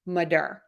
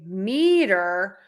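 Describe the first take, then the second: First: The stress is on the second syllable. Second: The stress is on the first syllable. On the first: It is the suffix added to a word. "We're going to stress syllable number two in madur" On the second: It is the standalone word. "where syllable number one is stressed"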